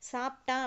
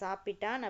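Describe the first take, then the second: First: It is said in the colloquial spoken form. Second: It is said in the formal standard form. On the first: This is how people say it in speech. "அப்படின்னு சொல்லுவோம்" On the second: This is the standard form of the language. "சரியான மொழி"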